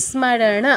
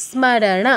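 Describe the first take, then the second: Both takes have the same delivery.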